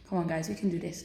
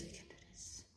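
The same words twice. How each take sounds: First: Said in the usual way. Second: Whispering to yourself; whispered. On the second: Real, not acted. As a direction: whisper it as a private pep talk.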